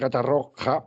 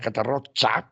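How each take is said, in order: First: The last consonant is a throaty 'h' sound. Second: The last consonant is a 'ch' sound. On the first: It is the normal Spanish form. "porque estoy hablando en castellano" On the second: It sounds false and cynical. "pronunciado así con che"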